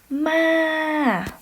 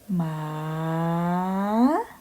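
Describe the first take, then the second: First: The pitch starts high and falls sharply. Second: The pitch dips low then rises upward. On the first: "next tone is falling tone" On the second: "rising tone"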